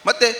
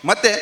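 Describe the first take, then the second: The two takes are said the same way.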